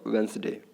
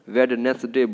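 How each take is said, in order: First: The d sound is silent. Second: The d sound is pronounced. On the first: The speaker calls it right. "यहाँ पे डी जो है आपका silent है" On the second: The speaker calls it wrong. "बहुत सारे लोग गलती करते हैं"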